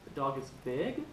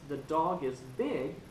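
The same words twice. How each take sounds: First: The voice rises at the end like a question. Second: The voice falls at the end like a statement. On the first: It asks a question. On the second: It states a fact.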